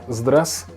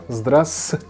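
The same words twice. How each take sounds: The two takes are said the same way.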